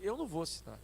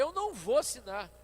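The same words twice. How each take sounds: First: Said in the usual way. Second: Higher and louder, digging in; a repeated no with rising temper; firmer refusal. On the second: Retold or imitated. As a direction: push back harder the second time. Repeated refusal, getting heated.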